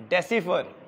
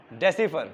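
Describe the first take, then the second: No difference in how they are said.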